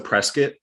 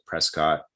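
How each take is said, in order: First: The ending rhymes with biscuit. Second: The ending does not rhyme with biscuit. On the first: The speaker calls it right. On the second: The speaker calls it wrong. "I pronounced it Prescott"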